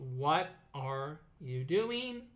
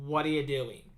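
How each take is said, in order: First: The phrase is said slowly, word by word. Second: The phrase is said fast, words linked together. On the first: "say it slowly" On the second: "say it faster, linking the words"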